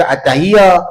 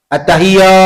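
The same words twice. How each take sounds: First: "at-tahiyya" with a light single ya, unstressed; wrong, no shadda. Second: "At-tahiyya" with the doubled ya pressed firmly; "At-tahiyya" said with the held, stressed double ya; correct shadda. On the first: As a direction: say "at-tahiyya" loosely with no doubled ya. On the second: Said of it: "kena bagi betul-betul bunyinya". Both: Shown as a demonstration.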